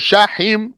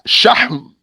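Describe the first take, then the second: First: An i vowel is heard between h and m. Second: No vowel is heard between h and m. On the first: The speaker calls it wrong. "or shahim" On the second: The speaker calls it right. "It's shahm"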